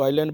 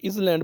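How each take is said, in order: First: "आइलैंड" as eye-land; silent S. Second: "इसलैंड" with an audible S before L; spelling pronunciation, S sounded. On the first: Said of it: "बोलते हैं". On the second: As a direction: say "इसलैंड" as spelt, is-land. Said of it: "बनता है अगर spelling". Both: Shown as a demonstration.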